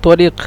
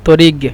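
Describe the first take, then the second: First: The word ends with a deep q sound. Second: The word ends with a g sound. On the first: This is the standard form of the language. "বিশুদ্ধ ভাষা হলো তরিক" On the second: This is the regional Saudi form. "সৌদির আঞ্চলিক ভাষায় বলে তরিগ, মানে কফকে গয়ন উচ্চারণ করে"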